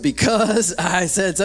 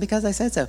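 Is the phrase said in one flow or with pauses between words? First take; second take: pauses; one flow. First: Each word is separated by a pause. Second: The words run together without pauses. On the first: "There's a period after each" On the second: "It wasn't"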